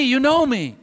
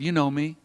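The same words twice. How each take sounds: First: Higher, friendly "You know me" with the stress on know; warm reassurance. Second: Softer and lower, "You know me" almost murmured; soft, tender. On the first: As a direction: tell an old friend he knows you. Jesus reassures his old friend. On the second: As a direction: murmur it gently to a frightened friend. Jesus speaks to a follower. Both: Acted.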